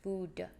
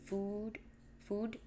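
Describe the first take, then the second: First: "Food" with the final D released as an extra "duh"; soft "Food-duh"; weird D. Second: "food" with an over-long oo; soft "food", the O's drawn out; too many O's. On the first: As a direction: punch out a separate D after "Food". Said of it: "I also say the D weird". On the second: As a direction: stretch the vowel in "food", softly. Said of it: "I put too many O's". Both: Shown as a demonstration.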